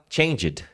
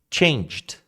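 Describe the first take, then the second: First: The ending is pronounced as an extra syllable. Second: The ending is joined without an extra syllable. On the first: The speaker calls it wrong. "muita gente fala changed" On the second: The speaker calls it right. "Do G você já vai para o D"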